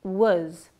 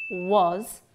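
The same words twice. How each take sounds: First: "was" reduced with a schwa; weak form. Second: "was" with a full vowel; strong form. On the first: Teacher models the weak form of "was". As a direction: say "was" short and unstressed. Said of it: "pronounced in weak form". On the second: Teacher models the strong form of "was". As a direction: say "was" clearly and stressed. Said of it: "in strong form". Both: Shown as a demonstration.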